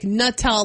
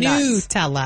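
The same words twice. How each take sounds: First: The first syllable sounds like the word 'nut'. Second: The first syllable does not sound like 'nut'. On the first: "probably say it like Nutella, like a nut" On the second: "Where we say"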